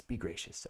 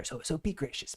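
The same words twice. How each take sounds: First: Soft repeat. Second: Said in the usual way. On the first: Real, not acted. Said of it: "repeated softer". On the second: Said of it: "repeated plea".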